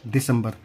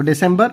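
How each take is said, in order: First: Last "दिसंबर" as Hindi di-sam-bar; Hindi pronunciation. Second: First "दिसंबर" as English di-SEM-ber; English pronunciation. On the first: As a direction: say "दिसंबर" with soft d and short a. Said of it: "आपका दिसंबर". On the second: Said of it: "तो दिसंबर आपका दिसंबर". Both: Shown as a demonstration.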